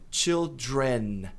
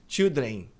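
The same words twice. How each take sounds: First: Put-on "children" slow, with the L and the final N clear; correct children. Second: Put-on "children" said like "childen", L dropped; common wrong way. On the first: Teacher models the correct "children" slowly. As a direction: say it slowly and precisely. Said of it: "Aqui esse M nosso". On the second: Teacher mimics the typical student mistake. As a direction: show the typical learner's mistake. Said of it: "Muita gente diz". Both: Shown as a demonstration.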